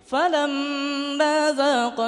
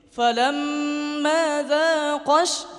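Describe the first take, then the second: First: The q sound in dhaqa is said plainly. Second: The q sound in dhaqa is pressed harder. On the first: It is unclear whether one or two people tasted. The speaker calls it wrong. "Kalau kita baca seperti ini" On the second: Two people tasted the fruit. The speaker calls it right. "ditekan di qafnya seperti ini"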